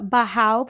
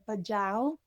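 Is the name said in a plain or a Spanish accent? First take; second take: Spanish; plain. First: The name is said with a Spanish accent. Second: The name is said without a Spanish accent. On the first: "I want to say this with a Spanish accent" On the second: "I wonder if you say Bajau. That doesn't sound right"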